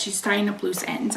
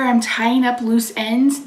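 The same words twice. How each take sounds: First: Softer, stunned echo of her words; quiet disbelieving repeat. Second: Said in the usual way. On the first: Retold or imitated. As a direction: let it sink in, under your breath. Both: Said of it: "Those were the exact words she said".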